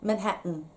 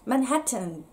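First: The t before the n is swallowed. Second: The t before the n is fully released. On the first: "マンハッタンです" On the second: "マンハッタンではなくて"

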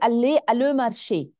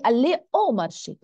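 First: The words 'à le' are said as two separate words. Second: The words merge into the single sound 'au'. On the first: The speaker calls it wrong. "ما بتزبط" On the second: The speaker calls it right. "فهون بقى بقول جو في aller au marché"

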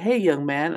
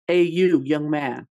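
First: The greeting sounds respectful and friendly. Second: The greeting sounds offensive and condescending.

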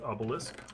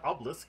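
First: The middle E is clearly pronounced. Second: The middle E is dropped. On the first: "I say the E" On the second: "I could say obelisk instead"

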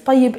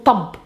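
First: The word is said in full, two syllables. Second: The word is shortened to one syllable. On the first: "this tayyib" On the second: "we abbreviate this tayyib into tab"

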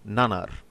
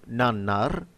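First: The double n is short like a single n. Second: The double n is held long and separate. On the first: The speaker calls it wrong. "instead of" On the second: The speaker calls it right. "If you imagine a space between nan and nar"

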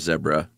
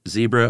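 First: The word is said in a British way. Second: The word is said in an American way.

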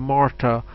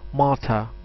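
First: It is said with an American pronunciation. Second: It is said with a native English pronunciation. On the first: "if it's an American, it will say Martha" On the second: "a native English will say Martha"

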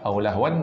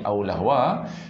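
First: The word ends with an n sound. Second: The word ends on a vowel without n. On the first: The speaker calls it wrong. "Aulahwan dah tak boleh bunyi" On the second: The speaker calls it right. "jadi aulahwa"

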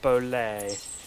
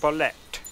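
First: The final T sound is left silent. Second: The final T sound is clearly pronounced. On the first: The speaker calls it wrong. "I was pronouncing it Bolet" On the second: The speaker calls it right. "You pronounce the T"

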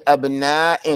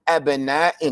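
Both takes have the same delivery.

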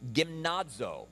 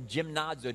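First: The word begins with a hard g sound. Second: The word begins with a soft j-like sound. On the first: "depending on hard or soft G there" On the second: "depending on hard or soft G there"

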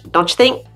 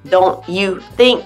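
First: The words are reduced and run together. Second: Each word is articulated clearly and separately.

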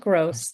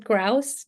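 First: The vowel sounds like 'oh'. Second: The vowel sounds like 'ow'. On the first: The speaker calls it wrong. "not Gross" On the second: The speaker calls it right. "my name is Grouse"

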